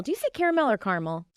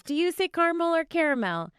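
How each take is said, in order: First: First "caramel" as CARE-uh-mel, second "caramel" as CAR-mul; three syllables, then two, for "caramel"; contrasted caramel pronunciations. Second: First "caramel" as CAR-mul, second "caramel" as CARE-uh-mel; two syllables, then three, for "caramel"; contrasted caramel pronunciations. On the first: Baker asking her co-host, "caramel" as CARE-uh-mel, then CAR-mul. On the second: Baker putting it to listeners, "caramel" as CAR-mul, then CARE-uh-mel. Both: Shown as a demonstration.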